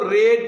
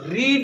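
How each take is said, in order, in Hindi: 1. स्वर छोटा 'e' वाला है। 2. स्वर लंबा 'ee' वाला है। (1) "इसको तुमको रेड पढ़ना है" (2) "रीड नहीं पढ़ना है"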